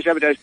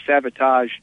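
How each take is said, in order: First: "sabotage" ending in a flat "-tadge". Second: "sabotage" ending in an open "-tahzh". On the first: Director correcting himself, "sabotage" said "-tadge". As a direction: say "sabotage" with the a of "cat" at the end. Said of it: "I'm getting the joke wrong". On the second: Director in the joke, "sabotage" said "-tahzh". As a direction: say "sabotage" with the a of "father" at the end. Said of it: "You're saying sabotage". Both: Retold or imitated.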